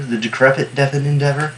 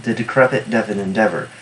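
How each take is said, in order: First: Rising like a question; trying a phrase out. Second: Settled falling statement, "decrepit" leaned on; savoring the phrase. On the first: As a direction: test the phrase with a questioning lift at the end. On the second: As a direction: say it as a finished joke, falling at the end. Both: Shown as a demonstration. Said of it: "That was good".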